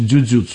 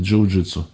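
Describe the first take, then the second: First: The word has its stricter, less familiar pronunciation. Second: The word has its customary, familiar pronunciation. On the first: "более правильно говорить, конечно" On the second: "как обычно у нас принято"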